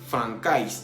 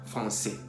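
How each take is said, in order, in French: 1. Le c se prononce comme un k. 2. Le c se prononce comme un s. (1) "para no decir francais" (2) "siempre se va a pronunciar S"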